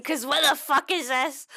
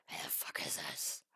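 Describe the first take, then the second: First: Said in the usual way. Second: Breathy repeat whispered to herself. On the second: Shown as a demonstration. Crafting streamer whispers the question again in disbelief, whispering. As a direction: whisper the line right after saying it aloud. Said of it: "'cause what the fuck is this?".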